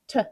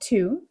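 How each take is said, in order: First: It is reduced to a short 't' sound. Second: It is said with a full vowel.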